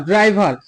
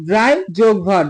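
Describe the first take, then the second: First: Said in the usual way. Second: "ড্রাই যোগ ভার" in separate parts, joined by যোগ; split into syllables. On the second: Shown as a demonstration. Teacher breaking ড্রাইভার for students, split into syllables. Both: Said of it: "এই শব্দটাকে যদি আমি ভাঙি".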